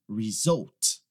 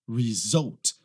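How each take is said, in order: The two takes are said the same way.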